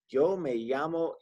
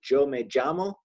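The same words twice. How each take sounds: First: The word begins with a smooth y sound. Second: The word begins with a j sound. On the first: "kind of how we'd say the Y in you" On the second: "in the Caribbean, they kind of pronounce it more like a J"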